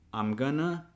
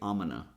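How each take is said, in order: First: The G sound in gonna is pronounced. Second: The G sound in gonna is dropped.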